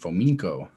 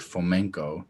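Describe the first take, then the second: First: The ending sounds sharp, like 'mink'. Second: The ending is said softly, not like 'mink'. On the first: This is how one particular person said it. "like the, a mink" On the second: This is how most people say it. "More people say Fomenko"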